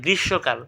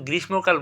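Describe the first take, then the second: First: গ্রীষ্মকাল as "grish-shokal"; silent m. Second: গ্রীষ্মকাল with m sounded, "grish-mokal"; as written. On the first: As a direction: drop the m, double the sh in গ্রীষ্মকাল. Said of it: "আমরা বলি". (গ্রীষ্মকালকে "গ্রিশ্-শোঁকাল" উচ্চারণ) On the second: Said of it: "আমরা কিন্তু কেউ গ্রীষ্মকাল বলি না". (গ্রীষ্মকালের ম স্পষ্ট উচ্চারণ) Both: Shown as a demonstration.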